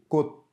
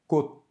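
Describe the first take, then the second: First: The final consonant is muffled and unreleased. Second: The final consonant is muffled and unreleased.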